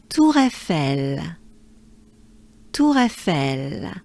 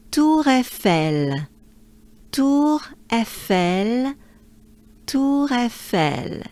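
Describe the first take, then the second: First: Tour Eiffel merged together, smooth; linked Tour Eiffel. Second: Slow, each sound pulled apart; slow Tour Eiffel. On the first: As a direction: Tour Eiffel as one flowing phrase. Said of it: "it would sound like this". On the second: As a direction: Tour Eiffel stretched out, separate syllables. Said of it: "So I would say". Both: Shown as a demonstration.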